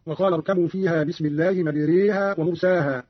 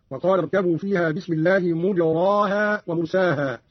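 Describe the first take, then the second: First: Said in the usual way. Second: "مجراها" as mujraaha, open aa; damma, no imala. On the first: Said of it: "قرأ قالون بضم الميم". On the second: Shown as a demonstration. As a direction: say "مجراها" with u on the meem and a full aa after the ra. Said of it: "بضم الميم وبغير إمالة في الراء هكذا". ("مجراها" بضم الميم وبغير إمالة)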